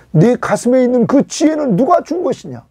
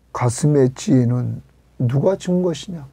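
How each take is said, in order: First: Emphatic challenge. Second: Said in the usual way. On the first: Acted. Restating God's question to Job.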